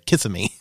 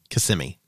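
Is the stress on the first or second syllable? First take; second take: first; second. First: The stress is on the first syllable. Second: The stress is on the second syllable. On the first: The speaker calls it wrong. "or as some people say, ... They say it wrong" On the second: The speaker calls it right. "I lived in Kissimmee"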